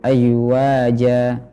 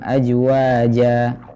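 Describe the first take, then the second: First: The z is pronounced like a y sound. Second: The z is pronounced like a j sound. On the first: "Atau ya" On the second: "mengucapkan huruf zai seperti huruf jim"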